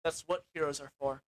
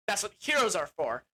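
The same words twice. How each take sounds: First: Softer, lower noble prince; understated brave hero line; low, quiet heroic vow. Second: Said in the usual way. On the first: Retold or imitated. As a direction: murmur it with quiet resolve. Prince Lear agrees, heroic. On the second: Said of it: "That's right".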